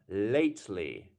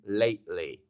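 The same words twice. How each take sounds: First: The T in the middle is clearly pronounced. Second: The T in the middle is dropped.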